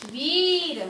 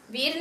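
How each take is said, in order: First: वीर stretched out as "veee-ra"; long vowel. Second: वीर clipped to a short "vir"; wrong short vowel. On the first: (वीर में ई को खींचकर) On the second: (वीर को छोटी इ से) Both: Shown as a demonstration. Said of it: "वीर नहीं बोला ना मैंने".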